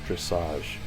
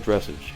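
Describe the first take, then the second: First: The word is pronounced differently from its spelling. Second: The word is pronounced just as it is spelled. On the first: The speaker calls it right. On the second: The speaker calls it wrong.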